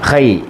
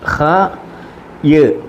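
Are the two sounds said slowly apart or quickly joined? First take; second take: joined; apart. First: The two sounds are run quickly into one. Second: The two sounds are said slowly and separately.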